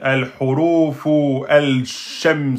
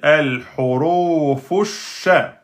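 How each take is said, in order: First: A full 'al' is heard before the sh. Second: No separate 'al' is heard before the sh. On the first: The speaker calls it wrong. "on ne va pas dire al-hurufu al-sham, c'est n'importe quoi" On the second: The speaker calls it right. "On va dire al-hurufu sha"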